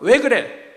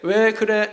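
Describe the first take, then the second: First: It sounds angry and accusing. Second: It sounds worried and concerned.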